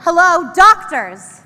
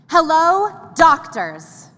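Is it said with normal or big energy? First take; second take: big; normal. First: It is said louder with more energy. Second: It is said with normal energy.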